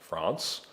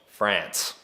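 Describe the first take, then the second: First: The word is said in an English accent. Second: The word is said in an Australian accent. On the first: "like an English accent" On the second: "and an Australian accent"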